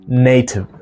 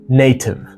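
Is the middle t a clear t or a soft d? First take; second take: clear t; clear t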